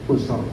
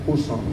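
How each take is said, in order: No difference in how they are said.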